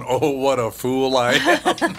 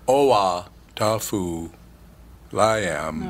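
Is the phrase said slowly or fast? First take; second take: fast; slowly. First: The phrase is said fast, running together. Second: The phrase is said slowly, as separate chunks. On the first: It reveals a sentence mocking the one saying it. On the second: It sounds like a meaningless mantra.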